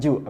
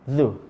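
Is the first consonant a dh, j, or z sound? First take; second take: j; dh. First: It starts with a j sound. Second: It starts with a soft dh sound. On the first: The speaker calls it wrong. "bukan ju" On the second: The speaker calls it right. "ini za"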